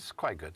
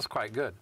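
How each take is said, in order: First: It is said in a dismissive tone. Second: It is said in an enthusiastic tone.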